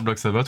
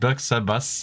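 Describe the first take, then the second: First: The name is pronounced the French way. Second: The name is pronounced the English way.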